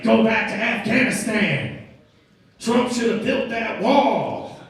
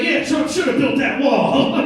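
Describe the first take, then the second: First: Higher, drawn-out angry shout. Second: High, loud, drawn-out backpedalling; suddenly side with the bully, much higher pitched; mock eager agreement. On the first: Retold or imitated. Angry motorist at the Uber driver, mock yelling. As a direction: yell it out slowly, word by word. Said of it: "he started yelling all these racial slurs". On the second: Regretful passenger to the big angry man, over-eager agreement.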